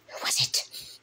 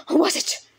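First: Whispered repeat. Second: Loud demand. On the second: Repeated question, loud. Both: Acted.

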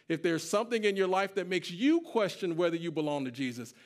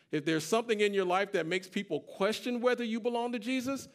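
First: "you" punched higher than the words around it; stress on YOU. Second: Raised pitch, weight on "people"; stress on people. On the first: Preacher warning the congregation about their own doubts, stress on "you". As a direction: turn it on the listener by hitting "you". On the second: Preacher warning the congregation about others' doubts, stress on "people". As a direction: make "people" the one who doubts, stressed firmly. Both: Real, not acted.

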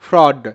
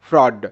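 First: ফ্রড said as one word, ফ্র blended then ড; pronouncing fraud. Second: ফ্রড put back together after spelling it out sound by sound; blended fraud. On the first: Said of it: "এটা হয় ফ্রড". (শিক্ষকের মতো স্পষ্ট করে ফ্রড উচ্চারণ) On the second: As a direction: join ফ্র and ড into one word, ফ্রড. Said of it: "তো ফয় র ফলা ফ্র". (ভেঙে বলার পর জুড়ে ফ্রড উচ্চারণ) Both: Shown as a demonstration.

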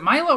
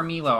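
First: "Milo" with a long "eye" in the first syllable. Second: "Milo" with an "ee" in the first syllable; Milo as MEE-lo. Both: Shown as a demonstration. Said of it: "Am I saying it correctly?".

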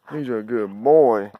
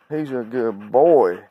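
First: Said in the usual way. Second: Slow drawn-out praise. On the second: Real, not acted. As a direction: savour each word, slowly, for the dog. Praising the dog.

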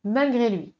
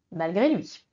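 First: "Malgré lui." left hanging as if followed by three dots; an ellipsis reading, suspended; trailing three dots. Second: "Malgré lui." dropped low and closed with a firm stop; suggested rhythm, clipped with a full stop; full stop after malgré lui. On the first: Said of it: "la solution des trois petits points". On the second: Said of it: "Je peux suggérer". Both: Shown as a demonstration.

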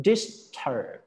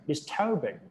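First: Disturb with the weight on -sturb; teacher models disturb before the longer form; stress on DISTURB. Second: Disturbance said slowly with the middle syllable -sturb- stressed; teacher shows how the stress lands in disturbance; stress shift shown. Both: Shown as a demonstration. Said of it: "เน้นตัวกลางทันที".

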